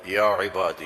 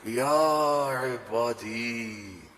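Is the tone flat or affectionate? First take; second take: flat; affectionate. First: It is said in a flat, recited tone. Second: It is said in a warm, loving tone.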